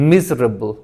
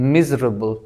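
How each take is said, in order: The two takes are said the same way.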